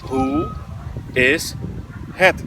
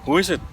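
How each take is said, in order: First: It is said slowly, each word apart. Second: It is said quickly, words running together. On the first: "kalau di breakdown pelan-pelan" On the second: "Itu cepatnya ya"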